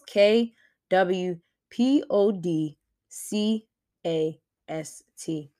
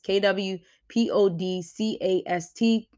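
First: It is spelled out slowly. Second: It is spelled at normal speed.

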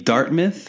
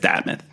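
First: It is said in a general American accent. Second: It is said in a local Boston accent. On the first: This is how most outsiders would say it. "It would be Dartmouth, probably to anybody else" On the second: This is how locals say it. "There it's Dartmouth"

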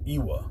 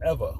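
First: The middle consonant is a W sound. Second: The middle consonant is a V sound. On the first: The speaker calls it wrong. "So I would say Ewa or Ewa" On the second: The speaker calls it right. "the W was pronounced as a V"

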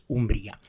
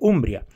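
First: The stress is on the second syllable. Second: The stress is on the first syllable. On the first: This is the Spanish pronunciation. "su denominación oficial en castellano" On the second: This is the Italian pronunciation. "en italiano el acento está en la U"

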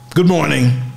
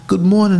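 First: It is said in a cold, unfriendly way. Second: It is said in a warm, friendly way.

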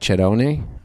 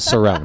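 First: The name is said with Italian pronunciation. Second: The name is said with anglicized American pronunciation. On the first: This is how the name is said in Italy. "In Italy, it's truly pronounced like Cerrone" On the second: This is the version used in the speaker's own region. "I'll stick with Cerrone"

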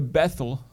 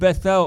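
First: The name is said the American way. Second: The name is said in a non-American way.

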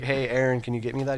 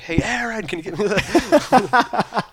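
First: The name is said at normal volume. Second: The name is suddenly yelled loudly.

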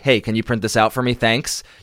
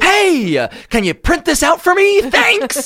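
First: It sounds flat and curt. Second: It sounds upbeat and friendly.

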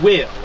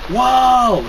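First: The name is said plainly with a short i. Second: The name is shouted with an open 'aw' vowel. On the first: "instead of saying Will" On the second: "he shouts it, whoa! So it sounds like he's saying wall"

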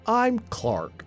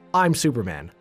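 First: The voice sounds slower and dumber. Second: The voice sounds normal and confident.

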